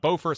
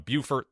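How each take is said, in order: First: It is pronounced the North Carolina way. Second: It is pronounced the South Carolina way. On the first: "North Carolina Beaufort" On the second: "South Carolina Beaufort"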